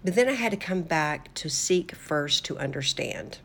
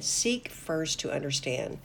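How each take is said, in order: First: Said in the usual way. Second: Seek first to understand, slower and softer, each word weighed; a quiet emphatic echo of the phrase; slow stressed repeat. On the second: Shown as a demonstration. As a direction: let it sink in, slowly. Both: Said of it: "I want to say that again".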